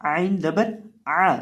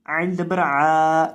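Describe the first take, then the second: First: आइन जबर आ with a short, simple आ; short ain. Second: आइन जबर आ with the आ drawn out long, slow; wrong long ain. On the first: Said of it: "simple, बगैर लंबा किए". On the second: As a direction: stretch the ain vowel as a mistake. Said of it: "इस तरह नहीं". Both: Shown as a demonstration.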